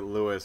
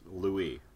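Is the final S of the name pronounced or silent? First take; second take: pronounced; silent. First: The name ends with an audible S sound. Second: The name ends without any S sound. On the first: The speaker calls it wrong. "I'm pronouncing it Lewis" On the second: The speaker calls it right. "It's Louis. ... it's a silent S"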